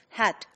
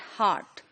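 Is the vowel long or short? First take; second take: short; long. First: The vowel is short, as in Nigerian English. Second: The vowel is long, as in standard British. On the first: "heart would also be pronounced as hat" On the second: "in the standard British pronunciation"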